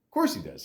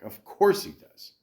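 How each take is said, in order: First: Said in the usual way. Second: Higher, sing-song of course; mock exaggerated. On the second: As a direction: say it like it's obvious, playfully high.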